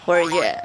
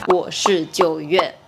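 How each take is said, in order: First: The words run together and 'jiu' disappears. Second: Each syllable, including 'jiu', is said separately.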